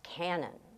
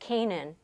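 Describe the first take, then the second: First: The name sounds like the word cannon. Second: The name sounds like the word Canaan. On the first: This is how the family said the name. The speaker calls it right. "no, no, it's pronounced Cannon" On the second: This is how most people say the street name. The speaker calls it wrong. "to this day they pronounce it Canaan"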